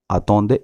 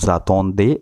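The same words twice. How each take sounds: First: It starts on a plain vowel, no z. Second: It starts with a linked z sound. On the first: The speaker calls it wrong. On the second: The speaker calls it right. "The sound comes za"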